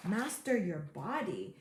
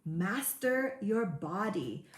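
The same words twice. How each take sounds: First: Said in the usual way. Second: Master your body drawn out slowly, each word weighted; slow emphatic heading. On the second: Shown as a demonstration. Coach to viewers, announcing the second secret, slow and weighty. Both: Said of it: "Secret number two".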